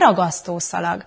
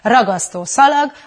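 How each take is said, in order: First: Only the first word carries the stress. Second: Both words are stressed at their beginnings. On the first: The phrase sounds like one unit. The speaker calls it right. "hanem ragasztó szalag. Az már egy összetartozó dolog" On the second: The phrase sounds like two separate words. The speaker calls it wrong. "ne hangsúlyozzunk ki minden szó elejét, például nem ragasztó szalag"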